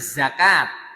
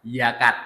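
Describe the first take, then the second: First: It is said with an Arabic pronunciation. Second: It is said with an Indonesian pronunciation. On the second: "kita mengatakannya yakat"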